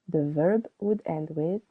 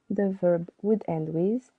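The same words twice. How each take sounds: The two takes are said the same way.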